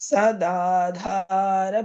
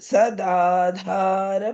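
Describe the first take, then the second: The two takes are said the same way.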